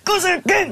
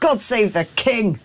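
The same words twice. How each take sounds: First: It is said angrily, with force. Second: It is said calmly, without anger.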